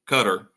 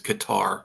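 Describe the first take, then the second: First: The name is said in its official pronunciation. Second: The name is said in a familiar anglicized pronunciation. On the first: The speaker calls it right. "I know that's the right way to pronounce it" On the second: The speaker calls it wrong. "it's always Qatar to me"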